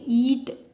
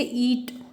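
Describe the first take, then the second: First: "ईट" with a drawn-out, stressed vowel; stressed single syllable. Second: Said in the usual way. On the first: Shown as a demonstration. ("ईट" पर ज़ोर, स्वर खींचकर) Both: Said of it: "यहाँ पे आपका stress आया".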